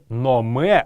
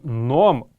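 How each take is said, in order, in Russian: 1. Слово заканчивается добавленным гласным звуком. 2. Слово заканчивается на согласный, без гласного. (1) "Не номе" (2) "а именно ном, правильная орфоэпическая норма"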